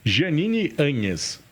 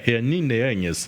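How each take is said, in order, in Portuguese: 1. O nome é dito com sotaque português. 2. O nome é dito com sotaque espanhol.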